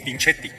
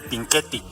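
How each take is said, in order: First: The consonant after 'Pin' sounds like 'ch'. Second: The consonant after 'Pin' sounds like 'k'. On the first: "Si estuviera solo la C, sí sería Pinchetti en italiano" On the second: "Cuando se usa la C H suena como nuestra Q U"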